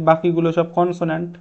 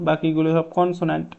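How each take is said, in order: Both takes have the same delivery.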